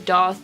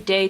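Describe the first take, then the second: First: The vowel sounds like 'oh' in 'moth'. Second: The vowel sounds like 'ay' in 'day'. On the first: "I think doth is the proper way to say it" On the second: "Some people say date"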